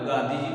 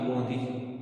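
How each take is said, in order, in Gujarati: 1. પહેલો સ્વર ખુલ્લો 'aa' અવાજ છે. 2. પહેલો સ્વર ગોળ 'o' અવાજ છે.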